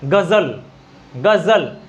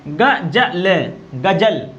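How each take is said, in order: First: गजल with a voiced z, as in ghazal; गजल with the nukta z sound; Urdu za. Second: गजल with plain j, d͡ʒ; गजल without the z sound. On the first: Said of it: "है क्या सही उच्चारण इसका". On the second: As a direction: read गजल the everyday Hindi way. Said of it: "इसको पढ़ेंगे तो क्या पढ़ेंगे". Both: Shown as a demonstration.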